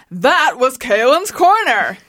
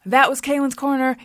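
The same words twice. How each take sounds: First: Slow, drawn-out announcer sign-off; hammed-up show announcer; announcery voice. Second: Lightly chanted show jingle; sung, easy sing-song tag line; sung, deliver it as a simple backing-vocal line. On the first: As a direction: stretch it out like a big outro. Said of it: "in an announcery voice". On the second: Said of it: "This is how the song would go". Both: Shown as a demonstration.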